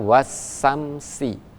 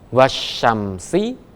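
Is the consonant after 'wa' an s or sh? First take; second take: s; sh. First: The consonant after 'wa' is a plain s sound. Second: The consonant after 'wa' is an sh sound. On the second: This is the standard reading.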